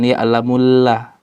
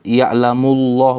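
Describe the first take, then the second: First: The L is pronounced light and thin. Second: The L is pronounced heavy and thick. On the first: The speaker calls it wrong. "bukan ya'lamullah" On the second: The speaker calls it right. "maka harus dibaca tebal"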